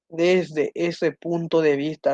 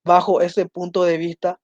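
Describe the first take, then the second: First: "desde" lengthened and stressed, the rest slow and even; very slow, stressing desde. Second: Said in the usual way. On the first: Shown as a demonstration. Teacher giving students the right form, very slow with stress on desde. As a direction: dictate it slowly, leaning on desde. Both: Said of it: "es la forma correcta".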